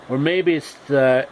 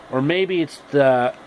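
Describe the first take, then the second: No difference in how they are said.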